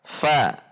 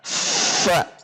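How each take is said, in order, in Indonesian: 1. Bunyinya keluar dengan ringan dan cepat. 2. Bunyinya didorong keluar dengan tekanan. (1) "ringan dan keluar dengan cepat" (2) "Contoh yang berat adalah fa"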